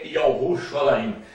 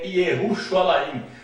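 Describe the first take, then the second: First: The name begins with a 'Yah' sound. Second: The name begins with a 'Ye' sound. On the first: This is the archaic Hebrew form. The speaker calls it right. "no hebraico arcaico" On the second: This is the modern Hebrew form. The speaker calls it wrong. "no hebraico moderno"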